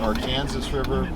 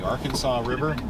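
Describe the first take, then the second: First: The name is pronounced the central Kansas way. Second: The name is pronounced the speaker's Ozark way. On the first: This is how native central Kansans say it. "native Kansans, at least from central Kansas, will call it" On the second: This is how the speaker grew up saying it. "To me, it's always been the Arkansas River"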